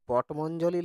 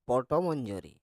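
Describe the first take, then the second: First: The word ends with an l sound: 'li'. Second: The word ends with an r sound: 'ri'. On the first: The speaker calls it wrong. "পটমঞ্জলি লই রে" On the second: The speaker calls it right. "পটমঞ্জরি বল"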